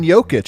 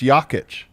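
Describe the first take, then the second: First: The name has the common anglicized pronunciation. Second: The name has its native Serbian pronunciation. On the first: The speaker calls it wrong. "We all say Nicola's name wrong" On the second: The speaker calls it right. "It's Jokic"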